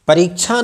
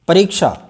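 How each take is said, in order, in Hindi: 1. यह संयुक्त वर्ण साफ़ sh ध्वनि के बिना बोला जाता है। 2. यह संयुक्त वर्ण k के बाद sh के रूप में बोला जाता है। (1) "परीक्षा नहीं होता है" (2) "अंत में श आना चाहिए"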